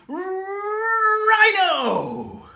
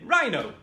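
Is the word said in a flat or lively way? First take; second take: lively; flat. First: The word is said with lively, exaggerated emphasis. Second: The word is said flatly, without much energy. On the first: The speaker calls it right. "you just go rhino. It's stupid, but it works" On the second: The speaker calls it wrong. "instead of saying rhino"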